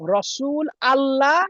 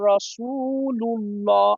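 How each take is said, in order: First: Allah starts anew with its own vowel. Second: Rasul runs straight into Allah as one word. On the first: The speaker calls it wrong. "বলা যাবে না" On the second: The speaker calls it right. "যখন মিলাই পড়বো তখন"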